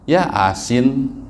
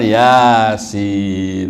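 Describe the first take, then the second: First: The 'a' is doubled, splitting the word in two. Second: The word flows smoothly with one single 'a'. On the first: It follows the Latin spelling with two A's. The speaker calls it wrong. "Kan A-nya dua. Ya asin" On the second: It follows the original Arabic pronunciation. The speaker calls it right. "Padahal Yasin ya"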